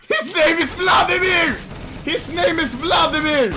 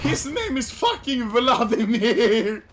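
First: High, loud announcement; excited shout, hammered out twice; hyped shouting. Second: Slow, stretched-out cry with laughter in it; milk the name VLADIMIR, holding the last syllable; laughing, long-held delivery of VLADIMIR; drawn-out exclamation. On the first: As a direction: yell it out in delight. Hyped shouting about teammate's name. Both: Real, not acted.

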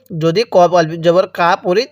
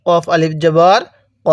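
First: কা said with a long open a, the common mistake; ভুল উচ্চারণ, কা লম্বা আ দিয়ে; wrong reading demo. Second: ক said short with a rounded o-like vowel, no long a; সঠিক উচ্চারণ, ছোট গোল ক; correct reading demo. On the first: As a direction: read কফ আলিফ জবর as কা with a long a, as a mistake. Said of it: "তাহলে কিন্তু পড়াটা সহি শুদ্ধ হবে না". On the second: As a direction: end on a short rounded ক, not কা. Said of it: "তাহলে কিভাবে পড়তে হবে?". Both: Shown as a demonstration.

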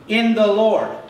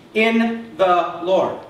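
First: Said in the usual way. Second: "In the Lord" drawn out very slowly, word by word; emphatic, word by word. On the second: Shown as a demonstration. Preacher drives the key phrase home to congregation, emphatic. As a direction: space out "In", "the", "Lord" for weight.

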